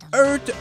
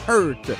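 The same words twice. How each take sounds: First: The name is pronounced with French sounds. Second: The name is pronounced with English sounds. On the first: "Je le prononce à la française" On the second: "il faudrait dire en anglais Heurt"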